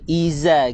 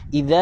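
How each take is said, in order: First: The middle consonant is a buzzing z sound. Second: The middle consonant is a voiced th sound. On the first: The speaker calls it wrong. "gigi berjumpa dengan gigi. Itu dia telah baca dengan huruf, huruf zai" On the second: The speaker calls it right. "Kena baca dengan huruf zal. Keluar lidah lebih daripada gigi"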